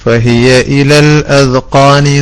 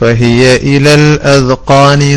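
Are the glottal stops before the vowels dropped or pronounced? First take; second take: pronounced; pronounced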